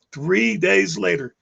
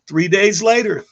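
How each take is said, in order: First: "three days later" stretched out slow for weight; slow repeat. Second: Said in the usual way. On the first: Shown as a demonstration. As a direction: drag out "three days later" to let it land.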